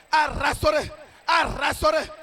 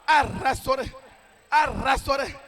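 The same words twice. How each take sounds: The two takes are said the same way.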